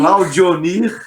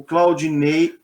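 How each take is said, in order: First: Claudionir, stretched out and raised, ending in -nir; corrected name. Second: Claudinei, drawn out with an -ei ending; mistaken name. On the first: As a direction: repeat "Claudionir" slowly and louder, with -dio-nir. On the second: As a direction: say "Claudinei" slowly, ending in -nei. Name said wrong, gets corrected. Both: Real, not acted.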